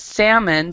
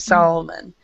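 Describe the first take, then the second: First: The word is said without an L sound. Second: The word is said with an L sound. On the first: The speaker calls it right. "we do not pronounce the L" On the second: The speaker calls it wrong. "We don't say Solomon"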